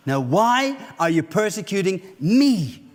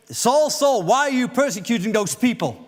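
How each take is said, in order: First: Slow, leaning hard on "me"; stress on me. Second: Said in the usual way. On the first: Shown as a demonstration. Preacher stressing "me" to the congregation, slow and pointed. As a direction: land the weight on "me" at the end. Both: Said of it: "Where he is not saying".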